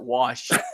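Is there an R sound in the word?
no. It is said without an R sound. This is the usual way to say it. "and not wash"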